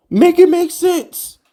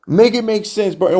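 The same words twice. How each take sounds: First: Much higher and slow, pleading; fed up with the ex-GM, whining high and slow; exasperated plea. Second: Said in the usual way. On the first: Real, not acted. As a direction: drag it out in a high incredulous whine.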